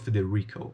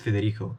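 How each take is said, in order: First: The R is pronounced the English way. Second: The R is not pronounced the English way. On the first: The speaker calls it wrong. "I do the R with the English pronunciation" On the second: The speaker calls it right. "My name is Federico"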